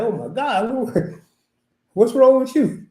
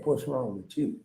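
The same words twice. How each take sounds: First: Shocked exclaim. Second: Quiet aside. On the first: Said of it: "I'm like". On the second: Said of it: "you really didn't ask your mama". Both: Retold or imitated.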